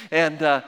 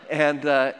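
The two takes are said the same way.

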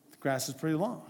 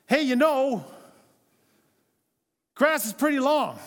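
First: Softer, casual hint with a rising end; understated hint. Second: Lightly voiced spouse dropping a loud hint; raised, higher pitch, lightly imitating a spouse's hint; pointed mock hint, pitched up. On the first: Retold or imitated. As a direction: lightly imitate a spouse just inferring. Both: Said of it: "She's just inferring".

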